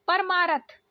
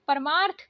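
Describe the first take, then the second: First: परमारथ said paramaarath, full r; wrong pronunciation. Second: परमार्थ said paramaarth with half r; correct pronunciation. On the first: Teacher shows the written mistake: wrong pronunciation. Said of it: "लिखा है". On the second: Teacher gives the pure form: careful pronunciation. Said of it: "शुद्ध". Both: Shown as a demonstration.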